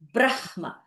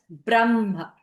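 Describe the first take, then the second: First: The h is strongly emphasized from the throat. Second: The h is light and comes from the chest. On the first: The speaker calls it wrong. "You never read this as Brahma" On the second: The speaker calls it right. "should be read as Brahma"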